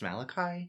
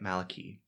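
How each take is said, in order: First: The name is said the commonly expected way. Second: The name is said the Irish way. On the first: "I thought his name is pronounced Malachi" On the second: "they say it Malachi ... the Irish pronunciation"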